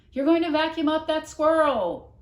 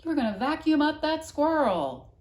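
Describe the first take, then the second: First: Loud high warning cry; shouting. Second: Loud high echo of the warning; shouting again. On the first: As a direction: yell out in alarm. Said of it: "she shouted". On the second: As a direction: hear the shout hang in the air. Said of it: "seeing them hanging there". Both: A narrator's reading.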